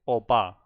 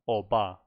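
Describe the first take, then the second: First: The middle consonant sounds like a B. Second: The middle consonant sounds like a B.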